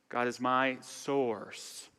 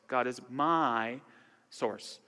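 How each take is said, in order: First: The stress falls on the word source. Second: The stress falls on the word my. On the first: "emphasize each word" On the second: "emphasize each word"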